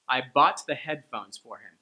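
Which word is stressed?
bought. The stress falls on bought and headphones. It is a neutral statement. "is just regular pronunciation of that sentence"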